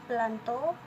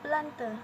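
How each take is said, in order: First: The final vowel sounds like o. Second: The final vowel sounds like e. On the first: This is the Perawang dialect form. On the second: This is the Siak dialect form.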